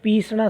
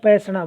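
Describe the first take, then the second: First: The word keeps its first long i vowel. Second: The word drops its first long i vowel. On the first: The speaker calls it right. "पीसना शब्द है" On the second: The speaker calls it wrong. "उसमें ई की मात्रा को वो हटा देते हैं, पैसना बोलते हैं"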